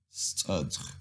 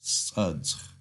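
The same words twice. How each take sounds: First: Studge repeated more softly with a falling end; teacher repeating the whole word Studge. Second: Studge joined into one syllable with a falling end; teacher putting the syllables of Studge back together; whole word together. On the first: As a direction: echo Studge gently for the learners. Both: Shown as a demonstration. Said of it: "Let's put it all together".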